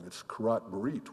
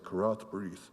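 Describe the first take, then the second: First: The words end in a hard T sound. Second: The words end in a soft TH sound. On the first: The speaker calls it right. "with a hard T" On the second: The speaker calls it wrong. "not a soft T, the way I had said it"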